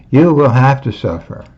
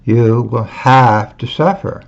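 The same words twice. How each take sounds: First: "will have to" pressed firm, no maybe; stress on "will have to". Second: Said in the usual way. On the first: Shown as a demonstration. Warning followers, firm stress on "will have to". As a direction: insist on "will have to", leaving no doubt. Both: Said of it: "You not maybe will suffer".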